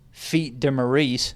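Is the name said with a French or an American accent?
American. It is said with an American-style accent.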